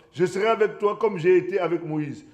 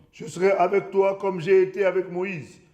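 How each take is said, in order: The two takes are said the same way.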